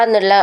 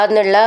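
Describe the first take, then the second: No difference in how they are said.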